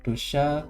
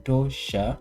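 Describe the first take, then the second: First: The word ends with a 'sha' sound. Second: The same.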